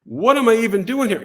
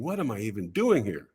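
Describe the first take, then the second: First: High-pitched, mock-alarmed inner voice; raised, incredulous self-questioning; panicked self-doubt. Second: Low, soft self-doubt; understated private worry; inner thought. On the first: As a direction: repeat the thought in rising disbelief. Same thought repeated, much higher. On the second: Retold or imitated. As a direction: think it aloud, softly to yourself. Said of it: "And I'm thinking".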